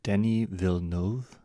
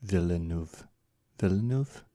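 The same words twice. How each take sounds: First: Villeneuve as "vil-NOHV", rising like a question; botched French pronunciation. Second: Villeneuve as "veel-NOOV", stated, then rising as a question; closer French pronunciation. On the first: Streamer copying a French name from a guide, unsure attempt at Villeneuve as "vil-NOHV". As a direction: try Villeneuve with an "oh" in the last syllable. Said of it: "Probably still butchering it".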